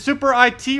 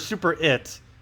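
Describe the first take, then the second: First: IT is spoken as two separate letters. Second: IT is spoken as the single word 'it'.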